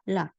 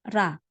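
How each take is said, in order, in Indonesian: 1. Suku kata ini diawali bunyi L. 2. Suku kata ini diawali bunyi R. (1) "Kalau dia awal permulaan pembukaan suku kata" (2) "Kalau dia di tengah-tengah kata"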